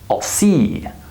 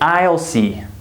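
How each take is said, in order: First: I'll is unstressed and reduced, like all. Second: I'll is full and stressed, like aisle. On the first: The speaker calls it right. "we say I'll see" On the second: The speaker calls it wrong. "So we don't say I'll see"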